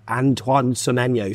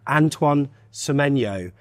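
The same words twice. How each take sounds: First: The name is said at a moderately slow pace. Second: The name is said even more slowly, syllable by syllable. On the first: "saying their name like really slow" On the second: "can you say it a bit slower"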